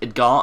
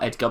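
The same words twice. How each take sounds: First: The name is said with a Spanish pronunciation. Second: The name is said with an English pronunciation. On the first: The speaker calls it right. "I'm guessing it's Edgar ... because he's Spanish" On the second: The speaker calls it wrong. "and not Edgar"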